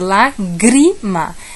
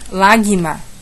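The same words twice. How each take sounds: First: The R after the G is clearly sounded. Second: The R after the G is left out. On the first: The speaker calls it right. "É lágrima" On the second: The speaker calls it wrong. "Não posso falar lágrima"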